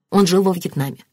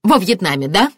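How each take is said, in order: First: Said in the usual way. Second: Sceptical, pointed repeat; scornful echo. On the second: A narrator's reading. Martin echoing the detective about the suspect, scornful. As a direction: echo it back with bitter disbelief.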